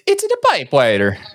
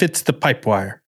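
First: It is said in a put-on cartoon voice. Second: It is said in a normal speaking voice.

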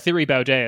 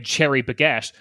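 First: The name is pronounced with English sounds. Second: The name is pronounced with Dutch sounds. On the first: "as I've been calling him" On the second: "I'm going to try and pronounce it the Dutch way"

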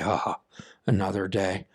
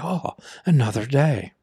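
First: It is said with a weary sigh. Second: It is said in a bright, cheerful tone.

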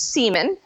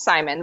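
First: The name is given a Norwegian pronunciation. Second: The name is given an English pronunciation. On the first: "in Norwegian, it's Simon" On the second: "in English, it's Simon"

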